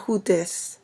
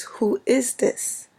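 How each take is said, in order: First: "Who dis" run together with a d and no "is"; New York short form. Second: "Who is this" slow and higher, each word separate; careful full form. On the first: Cousin correcting New York siblings, casual clipped "Who dis". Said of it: "It's not". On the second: Cousin correcting New York siblings, slow, careful "Who is this". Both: Shown as a demonstration.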